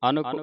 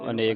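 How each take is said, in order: First: The second syllable is 'nak'. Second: The second syllable is 'nek'. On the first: The speaker calls it right. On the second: The speaker calls it wrong.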